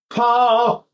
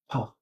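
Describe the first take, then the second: First: It is said with strong breath pressure. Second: It is said with less breath pressure.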